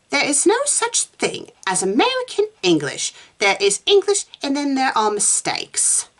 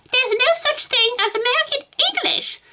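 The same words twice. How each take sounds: First: High, certain pronouncement; calm authority. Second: Very high squeaky parody; mocking mimicry. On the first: Susan correcting Meg on English, calm authority. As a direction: declare it high, as someone who knows they're right. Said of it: "with the calm authority of someone". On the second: Meg parroting Susan's lesson, mocking mimicry. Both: A narrator's reading.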